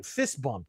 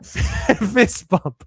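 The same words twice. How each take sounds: First: Said in the usual way. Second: Laughing through a louder fist bump. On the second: Real, not acted. To the author on screen, a laughing fist bump.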